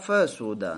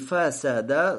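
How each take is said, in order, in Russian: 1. Во втором слоге гласный u. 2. Во втором слоге гласный a. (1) "но можно и с дхаммой" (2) "фасада с фатхой"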